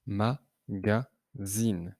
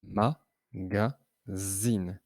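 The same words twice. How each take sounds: First: "Magazine" very slow, each syllable separated; syllables split. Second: "Magazine" drawn out very slowly, beat by beat; slow syllable-by-syllable "Magazine"; syllables split. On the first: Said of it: "Combien de syllabes entends-tu". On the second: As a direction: count the syllables of "Magazine" aloud. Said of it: "On entend trois syllabes". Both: Shown as a demonstration.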